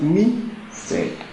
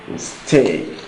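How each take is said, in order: First: The stress is on the first syllable. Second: The stress is on the second syllable. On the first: The speaker calls it wrong. "the stress will be on the first syllable" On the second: The speaker calls it right. "the stress, therefore, is on the second syllable"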